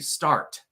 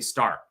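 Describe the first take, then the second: First: The final T is clearly pronounced. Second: The final T is dropped. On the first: "I don't say start" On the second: "I drop the T at the end of the word"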